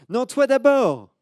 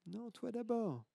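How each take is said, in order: First: Put-on high, loud, slow child's retort; loud high you first; little girl insisting. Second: High, soft faraway repeat; the retort coming back as an echo; faint distant echo. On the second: Acted. Echo answers the girl.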